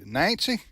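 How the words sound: It is said in a backwoods country accent. "would come come at me with uh, the country accent"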